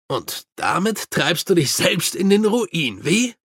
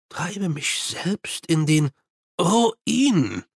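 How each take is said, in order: First: Mildly cheerful narrated line; lightly jovial character line. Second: Slow, half-whispered despair; hushed, desperate prompting. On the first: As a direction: toss it out with a touch of good cheer. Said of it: "sagte Mumm fröhlich". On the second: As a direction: drag it out in weary disbelief, rising on the last word. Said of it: "sagte Mumm verzweifelt". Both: A narrator's reading.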